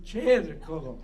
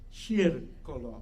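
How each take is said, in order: First: The word begins with a ch sound. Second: The word begins with an sh sound. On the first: "I usually say cercolo, like a chair" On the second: "If you think of shear, you know, the, the performer"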